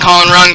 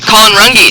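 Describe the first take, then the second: First: The surname is said as Rung. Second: The surname is said as Runge. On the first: The speaker calls it wrong. "I kept on saying Colin Rung" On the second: The speaker calls it right. "I apologize for mispronouncing that name"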